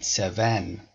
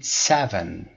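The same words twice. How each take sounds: First: "seven" with the stress put on the wrong syllable. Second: "seven" stressed on its first syllable "se"; correct stress on seven. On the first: Teacher showing the wrong stress on "seven". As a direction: say "seven" the way students should not. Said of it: "نگید seven". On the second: Teacher modelling the right stress on "seven". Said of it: "باید بگید seven". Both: Shown as a demonstration.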